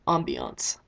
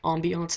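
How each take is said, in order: First: Ambiance dropped much lower and drawn out with a falling tune; low, proud Ambiance; savoring the word. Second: Said in the usual way. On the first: Shown as a demonstration. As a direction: relish Ambiance as a fancy vocab word. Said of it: "Brownie points for using a vocab word". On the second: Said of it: "using a vocab word".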